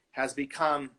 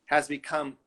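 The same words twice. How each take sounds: The two takes are said the same way.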